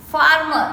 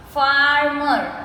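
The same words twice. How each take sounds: First: Said in the usual way. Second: "Farmer" drawn out as far-mer; slowly broken up. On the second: Shown as a demonstration. Teacher counting two syllables, "Farmer" slowly broken up. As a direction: stretch both syllables of "Farmer". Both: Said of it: "we say it slowly and we break the word".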